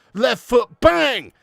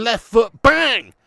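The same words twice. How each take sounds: First: Punchy loud call again; excited. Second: Punchy loud call; excited. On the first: Repeating strike call. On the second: Replaying goal strike. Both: Real, not acted. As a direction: shout the strike out.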